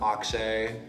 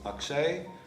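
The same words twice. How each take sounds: First: The first A sound is hard. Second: The first A sound is soft. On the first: This is the form used at school. "the way that I would pronounce it in classroom" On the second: This is the name's traditional form. "the traditional pronunciation of my name is Akshay, with kind of like that soft A sound"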